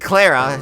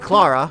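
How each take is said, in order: First: The name is said with a Southern American sound. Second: The name is said with a Danish-style sound. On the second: "since she's Danish"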